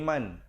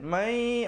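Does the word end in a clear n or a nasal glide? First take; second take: clear n; nasal glide. First: The word ends in a clear n sound. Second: The n merges into a nasalized glide. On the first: "asalnya ... bunyi man" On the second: "dibacakan mai"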